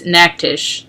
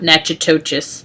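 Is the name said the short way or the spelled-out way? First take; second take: short; spelled-out. First: The name is said short, like 'Naktish'. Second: The name is said as spelled, with more syllables. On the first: The speaker calls it right. "that's how you pronounce it" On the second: The speaker calls it wrong.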